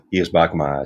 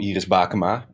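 First: The voice is low and sultry. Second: The voice is high and light. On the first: "Dit kan zwoelen" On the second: "dan ga je hier een beetje zo'n sopraantje op zetten"

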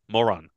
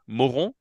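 First: The name is said with English pronunciation. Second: The name is said with French pronunciation.

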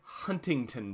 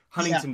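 First: The middle T sound is clearly pronounced. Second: The middle T sound is dropped. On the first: This is how people from elsewhere say it. "Anyone outside of California, Huntington Beach" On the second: This is how locals in California say it. "here in California, it's Huntington Beach"

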